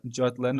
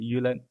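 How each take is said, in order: First: The name is said in its English form. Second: The name is said in its Danish form. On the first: The speaker calls it wrong. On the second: The speaker calls it right.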